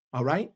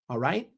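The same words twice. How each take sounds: The two takes are said the same way.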